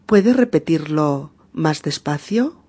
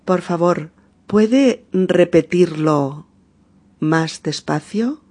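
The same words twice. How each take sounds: First: Said in the usual way. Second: Slowed, carefully articulated request; patient slow teacher demo; slow model phrase. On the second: Shown as a demonstration. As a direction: lay each word out slowly for the learner. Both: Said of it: "podemos decir".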